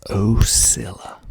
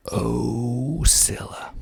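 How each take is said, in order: First: "Ocilla" as oh-SILL-uh, falling at the end; local pronunciation. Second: "Ocilla" stretched slowly, long opening OH; local pronunciation, drawn out. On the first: Showing listeners the town name, "Ocilla" said oh-SILL-uh. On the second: Repeating the town name for listeners, "Ocilla" slow with a long O. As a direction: draw "Ocilla" right out as ohhh-SILL-uh. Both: Shown as a demonstration. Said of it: "That's how you pronounce it".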